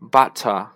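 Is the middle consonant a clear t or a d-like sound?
Clear t. The middle consonant is a clear t. "英国人呢发butter"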